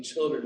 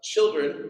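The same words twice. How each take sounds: First: Said in the usual way. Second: Calling out. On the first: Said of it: "which any man who yells out to me". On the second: Retold or imitated. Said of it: "hear this man on the beach yell out".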